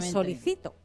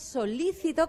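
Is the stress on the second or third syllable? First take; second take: third; second. First: The stress falls on the third syllable. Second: The stress falls on the second syllable. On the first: It means I request. "que no es lo mismo que solicito" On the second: It means eager or attentive. "solícito con acento"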